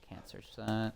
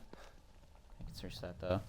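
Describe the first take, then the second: First: Said in the usual way. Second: Slow, soft whisper to himself. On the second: Real, not acted. Noticing the item is searchable after all, a slow whisper. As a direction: breathe it out slowly under your breath. Checking items while playing.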